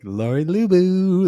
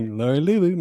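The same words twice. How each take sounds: First: High, loud, slow sung call; sung greeting. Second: Higher sung call, laughing; sung greeting. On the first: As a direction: sing the name out brightly. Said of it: "That's what I always say when you call". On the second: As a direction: sing the name again. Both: Retold or imitated.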